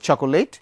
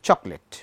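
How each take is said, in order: First: It is said with three syllables, cho-ko-let. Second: It is said with two syllables, chok-let. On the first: "কেউ উচ্চারণ করি চকোলেট" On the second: "কেউ বলি চকলেট"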